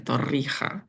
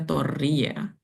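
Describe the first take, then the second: First: The consonant before the final vowel sounds like h. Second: The consonant before the final vowel sounds like y. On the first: This is how it is said where it comes from. "di tempat asalnya ia dibaca Torrija dengan huruf hijaiyah yang familiar di lidah muslimku, H" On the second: This is how a Javanese speaker would read it. "kalau ia ditemukan oleh Pak Deku yang orang Jawa, ia akan dibaca Toria"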